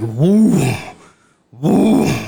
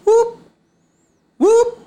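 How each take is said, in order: First: It is a deep, forceful call. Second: It is a small, high call.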